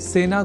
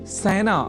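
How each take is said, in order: First: The first vowel is a plain e sound. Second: The first vowel is an ai sound. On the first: The speaker calls it right. "सेना इस शब्द के उच्चारण में ए इस स्वर वर्ण या अक्षर का ही प्रयोग" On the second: The speaker calls it wrong. "सेना को सैना बोल जाने की प्रवृत्ति"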